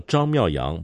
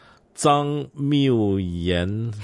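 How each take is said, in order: First: The name ends with a back nasal ng sound. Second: The name ends with a front nasal n sound. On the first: The speaker calls it right. "张卷舌后鼻音，妙阳后鼻音" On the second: The speaker calls it wrong. "肮脏的脏，荒谬的谬。语言的言"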